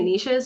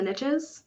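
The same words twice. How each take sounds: First: The word does not rhyme with riches. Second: The word rhymes with riches. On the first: The speaker calls it right. "I say niches" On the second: The speaker calls it wrong. "I have to say it wrong"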